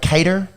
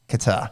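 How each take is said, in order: First: The name sounds like the word 'cater'. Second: The name sounds like the country 'Qatar'. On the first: Other people say it this way. The speaker calls it wrong. "I've heard Cater before" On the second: This is believed to be the proper way. The speaker calls it right. "but I think it's Qatar"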